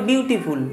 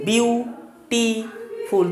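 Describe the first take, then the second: First: Said in the usual way. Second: "বিউটিফুল" broken slowly into three syllables with long gaps; in three parts. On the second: Shown as a demonstration. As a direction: say "বিউটিফুল" syllable by syllable, pausing between each. ("বিউটিফুল" তিন ভাগে ভেঙে, ধীরে ধীরে) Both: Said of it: "তুমি তিনবারে বলছো".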